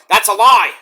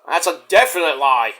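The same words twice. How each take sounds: First: Louder, punched denial on lie; firm denial. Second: Said in the usual way. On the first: Real, not acted. Vlogger shooting down critics, loud flat denial. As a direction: shut it down hard.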